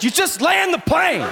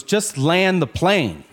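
First: High-pitched, hammed-up angry yell; aggressive shout. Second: Slow, slightly raised demand; restrained insistence. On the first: Passenger gets more aggressive with his seatmate, high mock-angry shout. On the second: Retold or imitated. Passenger turns to seatmate about the delayed landing, restrained insistence. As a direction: insist slowly without shouting. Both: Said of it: "more aggressive".

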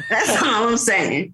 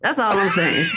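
First: Slow, drawn-out shouted repeat; slow mock shout. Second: Laughing, half-shouted tag line; laughing punchline. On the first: Mom repeating her point to the toddler, slow mock shout. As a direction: hammer the punchline home slowly. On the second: Retold or imitated. Mom finishing her roast of the toddler, laughing. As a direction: land the punchline through laughter.

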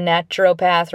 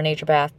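First: "naturopath" said NATCH-er-oh-path; short A, clear O in "naturopath"; alternate pronunciation. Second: "naturopath" said NAY-cher-path; long A, no O in "naturopath"; alternate pronunciation. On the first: Host recommending one to listeners, "naturopath" as NATCH-er-oh-path. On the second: Host repeating the other variant for listeners, "naturopath" as NAY-cher-path. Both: Shown as a demonstration. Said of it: "People say it different ways".

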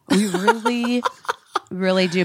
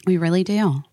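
First: Laughing through the repeat. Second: Said in the usual way. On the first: Real, not acted. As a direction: giggle the words out.

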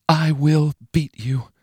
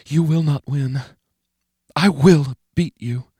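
First: High, slow, menacing vow. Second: High, slow, menacing taunt; a threat said with cold resolve. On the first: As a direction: say it like a cold promise. Inner vow repeated. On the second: Menacing inner voice. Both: Acted.

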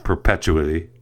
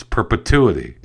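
First: "perpetuity" said as per-PETCH-oo-ity; wrong pronunciation. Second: "perpetuity" said as per-puh-TOO-ity; correct pronunciation. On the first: Host showing how he said the word wrong, mispronounced. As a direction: show the slip: "perpetuity" with PETCH stressed and a ch. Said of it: "I said the word wrong". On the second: Host correcting the word he said wrong, correct pronunciation. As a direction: stress TOO in "perpetuity", with a clean t sound. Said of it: "It's not perpetuity". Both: Shown as a demonstration.

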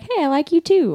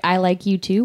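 First: "Hey, I like U two" said with a much higher, sing-song cutesy lilt; bubbly cutesy reading of "I like U two". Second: Said in the usual way. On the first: Retold or imitated. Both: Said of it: "I thought it was just something cutesy".

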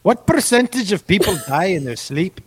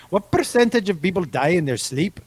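First: A bold put-on Irish accent, laughing mid-line; Irish accent breaking into a laugh. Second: A second, mild try at an Irish accent. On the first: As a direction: go for a hammed-up Irish brogue. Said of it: "Oh, I nailed that". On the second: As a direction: repeat it in a light Irish accent. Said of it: "Best Irish accent ever". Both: Shown as a demonstration.

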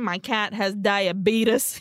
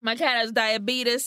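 First: Diabetes said slowly, tie-ah-BEE-tus; odd pronunciation. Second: Diabetes with a t sound, tie-ah-bee-tus; odd pronunciation again. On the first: Nerdy Dave explaining his cat, drawn-out diabetes. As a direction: stretch out diabetes oddly. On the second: Narrator repeating Dave's line, same odd diabetes. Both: Retold or imitated. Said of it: "He says it like that".

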